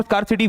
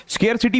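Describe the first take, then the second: First: स्कार्सिटी as skaar-si-ti; 'skaar' pronunciation. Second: स्केरसिटी as skair-si-ti; 'skair' pronunciation. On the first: Teacher allowing this form too, स्कार्सिटी said as skaar-si-ti. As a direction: open स्कार्सिटी with a long 'aa' as in car. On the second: Teacher calling this form correct, स्केरसिटी said as skair-si-ti. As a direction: open स्केरसिटी with an 'air' vowel. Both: Shown as a demonstration. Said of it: "स्केरसिटी भी सही है और स्कार्सिटी भी सही है".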